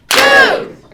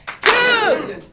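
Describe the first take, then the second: First: The word is said more loudly. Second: The word is said less loudly.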